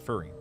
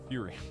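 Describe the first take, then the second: First: The first syllable sounds like 'fur'. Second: The first syllable sounds like 'few'. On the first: The speaker calls it wrong. "sorry, not furry" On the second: The speaker calls it right. "Completely different kind of fury"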